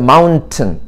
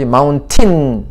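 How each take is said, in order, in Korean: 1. 두 번째 음절은 약하게 줄어들어요. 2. 두 번째 음절은 완전하게 발음돼요. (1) "mountain이라고 발음하지" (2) "하면은 콩글씨"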